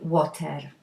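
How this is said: It is said with a Polish accent.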